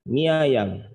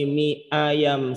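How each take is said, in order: First: The vowel starting 'ayam' is softened and blended. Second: The vowel starting 'ayam' is clearly separated. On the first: "mesti bilangnya" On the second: "Jarang orang nyebutnya"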